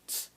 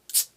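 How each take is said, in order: First: The ts is a plain, ordinary sound. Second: The ts is quick, snapped and hard. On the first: "T S is one sound" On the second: "when it's hard, you make that one sound hard, so you go tss"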